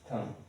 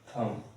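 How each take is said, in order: Both takes have the same delivery.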